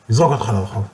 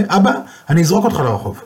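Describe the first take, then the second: First: Said in the usual way. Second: Angry son. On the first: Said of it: "repeated line". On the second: Retold or imitated. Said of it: "הבן כעס".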